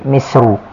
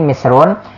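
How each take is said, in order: First: The word ends in a vowel, without n. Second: The word ends with an n sound. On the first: "bisa juga dibaca ghairu munsharif. Jadi misru" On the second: "bisa dibaca munsharif bertanwin misrun"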